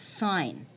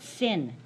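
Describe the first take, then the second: First: The vowel is long, as in 'line'. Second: The vowel is short, as in 'pin'. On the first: The speaker calls it right. "That's sine" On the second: The speaker calls it wrong. "that's not sin"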